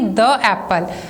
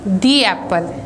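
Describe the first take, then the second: First: 'The' is said with a short 'uh' vowel. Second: 'The' is said with a long 'ee' vowel. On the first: The speaker calls it wrong. "It will not be द एप्पल" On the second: The speaker calls it right. "हम इसे बोलेंगे दी एप्पल"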